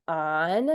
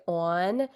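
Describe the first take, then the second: First: Said in the usual way. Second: Rounded "aw" vowel in "on"; New York "on". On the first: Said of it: "instead of on". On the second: Shown as a demonstration. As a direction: say "on" as "awn", New York style. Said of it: "Like, they say on instead of".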